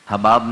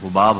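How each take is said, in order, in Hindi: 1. पहले शब्दांश में 'a' स्वर है। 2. पहले शब्दांश में 'u' स्वर है। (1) "हबाब नहीं होता" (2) "असल लफ्ज़ जो है वो हुबाब होता है"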